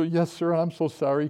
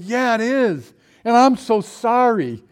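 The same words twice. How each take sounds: First: Said in the usual way. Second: Loud, high, drawn-out apology; high loud apology to the boxer's owner. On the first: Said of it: "And I go". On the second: Retold or imitated. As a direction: plead sorry to the dog owner, slowing down. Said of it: "And I said".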